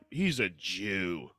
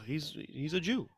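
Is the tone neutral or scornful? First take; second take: scornful; neutral. First: It is said in a scornful, mocking tone. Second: It is said in a plain, neutral tone. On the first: It is meant as an insult. "all you got to do is change the inflection" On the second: It simply describes the person. "just a description"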